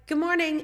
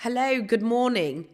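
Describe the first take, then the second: First: Very high, loud good morning; high-pitched greeting back. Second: Loud, raised, imitated worker's hello; worker's morning greeting. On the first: Retold or imitated. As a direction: sing out an eager reply to the worker. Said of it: "And I'm like". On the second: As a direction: call out a hearty good morning. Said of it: "every morning he'd be like".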